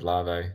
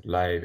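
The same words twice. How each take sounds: First: Larvae as two syllables, LAH-vay; long-remembered pronunciation. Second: Lave as one syllable, rhyming with wave; official pronunciation. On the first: Interviewer recalls twenty years of saying it, Larvae as LAH-vay. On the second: Interviewer gutted at the official name, Lave rhyming with wave. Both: Shown as a demonstration. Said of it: "said Lave instead of Larvae".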